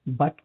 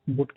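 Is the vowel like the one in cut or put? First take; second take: cut; put. First: The vowel sounds like the one in cut. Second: The vowel sounds like the one in put.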